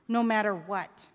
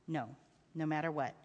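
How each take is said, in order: First: Lightly voiced child checking a promise; insistent boy. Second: Low, soft father's promise; reassuring father. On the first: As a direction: press for reassurance as a boy. Child seeks reassurance. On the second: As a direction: confirm it quietly to a child. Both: A narrator's reading.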